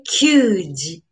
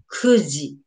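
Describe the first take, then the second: First: Kyuji with a y glide, marked wrong; wrong reading kyuji. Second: Kuji, plain ku without glide; correct reading kuji. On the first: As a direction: say kyuji as the form to avoid. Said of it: "But we don't say kyuji". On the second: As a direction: say kuji as the right form. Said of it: "This is kuji". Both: Shown as a demonstration.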